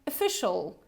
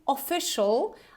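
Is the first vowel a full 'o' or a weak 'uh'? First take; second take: weak uh; full o. First: The first vowel is a weak, relaxed 'uh' sound. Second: The first vowel is a full 'o' sound. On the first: The speaker calls it right. "We also have this schwa sound. So this very gentle, relaxed sound" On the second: The speaker calls it wrong. "I'm not saying official"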